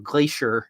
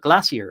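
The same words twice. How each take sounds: First: It is said with an American pronunciation. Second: It is said with a non-American pronunciation.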